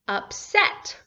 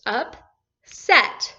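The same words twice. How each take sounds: First: Said in the usual way. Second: UPSET split by a clear pause, up... set; one syllable at a time. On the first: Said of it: "take one syllable at a time and read it". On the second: Shown as a demonstration. Teacher showing how to read longer words, one syllable at a time. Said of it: "take one syllable at a time".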